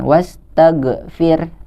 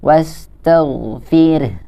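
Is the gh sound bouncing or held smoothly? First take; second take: bouncing; held. First: The gh sound bounces with a short echo. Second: The gh sound is held and flows smoothly. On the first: The speaker calls it wrong. "tidak dibaca dengan memantul" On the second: The speaker calls it right. "ditahan, dialirkan"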